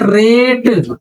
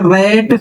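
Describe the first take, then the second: First: रेट slowly, with a long "ay" as in rate; long E vowel. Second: रेट said as "rat", with open "ae"; open AI vowel. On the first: Teacher showing the ए sound, रेट with long "ay". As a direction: stretch रेट on a closed "ay" vowel. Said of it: "ए का जरा बताना". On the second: Teacher showing the ऐ sound, रेट pronounced "rat" with open "ae". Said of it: "आय का जरा बताओ". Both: Shown as a demonstration.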